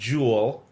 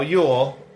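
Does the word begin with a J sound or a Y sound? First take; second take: J sound; Y sound. First: The word begins with a J sound. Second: The word begins with a Y sound. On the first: The speaker calls it wrong. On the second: The speaker calls it right.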